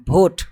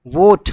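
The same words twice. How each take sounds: First: Vote said as "bhote"; wrong BH sound. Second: वोट with a clear v, loud; correct V sound. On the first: Teacher showing the mistake to avoid, BH for V. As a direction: start vote with a breathy bh instead of v. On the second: Teacher giving the right reading, clear V. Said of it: "इसको हम लोग पढ़ेंगे". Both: Shown as a demonstration.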